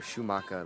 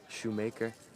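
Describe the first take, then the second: First: The name is pronounced the German way. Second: The name is pronounced the plain English way. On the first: "like the German kind of pronunciation of it" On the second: "like it is said"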